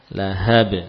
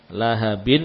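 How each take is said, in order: First: The word ends on a bare 'b' sound. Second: The word ends with the sound 'in'. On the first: The reader stops on this word. "menjadi lahab" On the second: The reading continues without stopping. "lahabin menjadi lahab"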